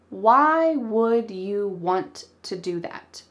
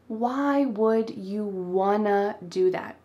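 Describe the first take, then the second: First: "Want to" is said clearly as two full words. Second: "Want to" is reduced to one word, "wanna". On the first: "But did I say it that clearly? Nope" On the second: "want to becomes wanna"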